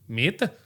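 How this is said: It is said in a French accent.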